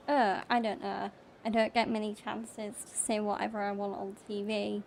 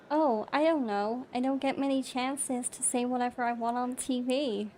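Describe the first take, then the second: First: Said in the usual way. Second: Put-on American accent, a little livelier; British speaker demonstrating an American accent. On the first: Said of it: "So, my normal voice". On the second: Shown as a demonstration. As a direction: do it in American, with a slight British twang. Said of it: "if I say it in American".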